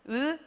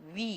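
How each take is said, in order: First: The vowel keeps one steady mouth shape. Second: The vowel glides from one shape to another. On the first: "단모음 발음이에요" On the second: "벌써 입 모양이 변하는 거 보이시죠? 이중모음으로 발음하는 거예요"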